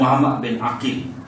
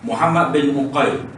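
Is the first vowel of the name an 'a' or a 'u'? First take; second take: a; u. First: The name begins with an 'a' vowel. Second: The name begins with a 'u' vowel. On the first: "dengan huruf Ain berbaris atas" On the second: "dengan huruf Ain berbaris hadapan"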